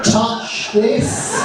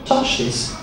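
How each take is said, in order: First: It is said slower and louder. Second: It is said at a normal pace and volume.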